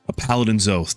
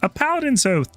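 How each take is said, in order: First: It is said in the speaker's natural voice. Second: It is said in a put-on reviewer voice.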